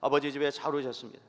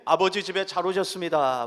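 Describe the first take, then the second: First: Brisk, lighter repeat of the welcome; quick casual greeting. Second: Loud, bright welcome call to the congregation; warm loud greeting. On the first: Pastor models greeting again, quick and light. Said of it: "반갑게 인사하십시다". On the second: Pastor has the congregation greet neighbors, loud welcome. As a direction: call out the welcome warmly and loudly. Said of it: "반갑게 인사하실 때에". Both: Shown as a demonstration.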